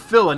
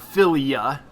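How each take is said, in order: First: The ending is said as two syllables, fi-la. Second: The ending is said as three syllables, fi-li-a. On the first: The speaker calls it right. "or Phila" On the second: The speaker calls it wrong. "not Philia"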